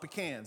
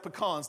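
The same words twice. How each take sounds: First: The second syllable sounds like 'can'. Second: The second syllable does not sound like 'can'. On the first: This is how other people say it. The speaker calls it wrong. "not pecans" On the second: This is the speaker's home pronunciation. The speaker calls it right. "we have pecans"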